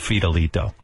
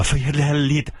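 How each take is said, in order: First: The name is said with an English accent. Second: The name is said with a Spanish accent. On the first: The speaker calls it right. "Just say Fidelito" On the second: The speaker calls it wrong.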